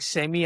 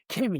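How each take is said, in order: First: The word begins with an S sound. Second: The word begins with a K sound.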